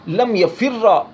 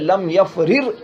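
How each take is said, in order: First: The last word ends with an 'a' vowel. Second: The last word ends on a bare consonant.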